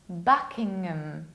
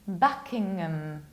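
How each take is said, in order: First: The ending 'ham' is reduced and weak. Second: The same.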